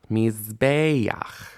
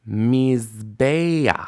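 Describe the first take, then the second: No difference in how they are said.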